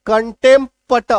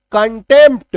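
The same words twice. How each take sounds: First: "कंटेम्प्ट" with the p sounded, kəntempət; wrong with p. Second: "कंटेम्प्ट" with no p, kəntemt; silent p. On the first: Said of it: "गलत हो जाता है ना". ("कंटेम्प्ट" में पी बोलकर गलत उच्चारण) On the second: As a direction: say "कंटेम्प्ट" dropping the p. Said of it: "पी को काट दो". ("कंटेम्प्ट" बिना पी के बोलें) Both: Shown as a demonstration.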